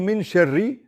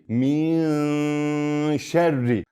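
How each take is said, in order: First: The n is pronounced fully and clearly. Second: The n is hidden and sounds nasalized. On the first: The speaker calls it wrong. "We don't say min sharri" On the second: The speaker calls it right. "We hide noon and pronounce it nasally"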